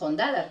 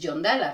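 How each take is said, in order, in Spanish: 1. El nombre se pronuncia de forma española. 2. El nombre se pronuncia de forma parecida al inglés. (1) "que sería como tendría que decirlo si lo dijera en castellano" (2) "como estoy acostumbrada a pronunciarlo así, a mí me nace decir"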